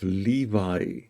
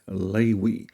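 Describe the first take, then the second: First: The middle consonant is a v sound. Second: The middle consonant is a w sound. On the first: The speaker calls it wrong. "usually called the tribe of Levi" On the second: The speaker calls it right. "a more accurate pronunciation is uh, most probably Lewi"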